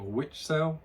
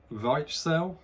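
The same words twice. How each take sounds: First: "Witchsel" with an English W, like "witch" plus "sel"; alternative pronunciation attempt. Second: "Weichsel" with a V and an "eye" vowel, VYTCH-sel; tentative German pronunciation. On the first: Reviewer unsure of the German name, trying "Witchsel" with English W. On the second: Reviewer attempting the German beer name, "Weichsel" said VYTCH-sel. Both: Shown as a demonstration. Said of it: "I will try and pronounce the word".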